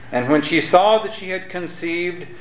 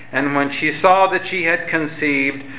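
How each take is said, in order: Both takes have the same delivery.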